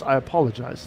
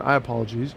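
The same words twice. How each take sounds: First: Said in the usual way. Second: "apologize" ending in "-jeez"; "apologize" said as "apologies". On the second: Real, not acted. Streamer slipping while apologizing, "apologize" ending in "-jeez". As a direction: say "apologize" with an ee sound in the last syllable.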